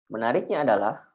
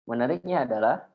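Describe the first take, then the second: No difference in how they are said.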